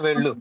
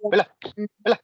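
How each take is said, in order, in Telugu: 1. ఈ పదం సాధారణంగా, మామూలు పద్ధతిలో చెప్పబడింది. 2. ఈ పదం గట్టిగా, బలమైన నొక్కితో చెప్పబడింది. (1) "వెళ్ళు అంటే ఒక మామూలుగా" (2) "కొద్దిగా గట్టిగా నొక్కి చెప్పినట్టు"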